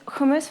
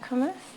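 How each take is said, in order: First: The word is pronounced in a careful, fancy way. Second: The word is pronounced in a casual, lazy way. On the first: The speaker is trying to sound sophisticated. "when I'm trying to be fancy" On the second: The speaker is not making an effort. "otherwise it's just like hummus... lazy"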